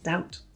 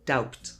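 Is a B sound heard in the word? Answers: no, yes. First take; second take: no; yes. First: No B sound is pronounced before the T. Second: A B sound is pronounced before the T. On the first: The speaker calls it right. "It's just doubt" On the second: The speaker calls it wrong. "A really common mistake is saying doubt"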